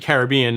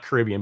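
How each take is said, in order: First: The word opens with the full sound 'Carib'. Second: The word does not open with 'Carib'. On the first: The speaker calls it right. "it's actually it's Caribbean because like if you look at the ... origin ... were the Carib Indians" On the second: The speaker calls it wrong. "not Caribbean"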